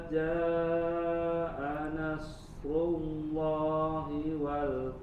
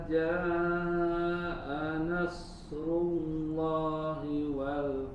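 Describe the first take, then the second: No difference in how they are said.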